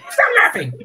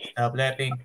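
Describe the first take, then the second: First: Louder, higher furious order; angry yell. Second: Said in the usual way. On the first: Acted. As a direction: snap it at him. Villain yelling at frog.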